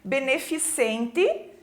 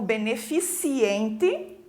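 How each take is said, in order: First: No i sound comes before the ending. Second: An i sound comes before the ending. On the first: The speaker calls it right. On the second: The speaker calls it wrong.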